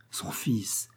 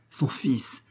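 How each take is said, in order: First: A strangled, breathless whisper; stunned hushed gasp of the words; stifled whisper. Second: Said in the usual way. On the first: A narrator's reading. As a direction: choke the cry back to a whisper. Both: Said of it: "Dubief étouffa un cri".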